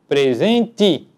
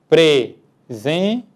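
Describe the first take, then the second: First: The final vowel sounds like I. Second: The final vowel sounds like E. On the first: "que pronunciamos presente" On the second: "Falado pausadamente, nós conseguimos pronunciar a letra E corretamente com o seu som original"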